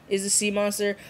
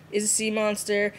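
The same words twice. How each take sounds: The two takes are said the same way.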